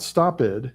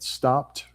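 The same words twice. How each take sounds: First: The ending is not said as a T sound. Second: The ending is said as a T sound. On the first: The speaker calls it wrong. "not stopped" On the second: The speaker calls it right. "after the P, ed sounds like a T"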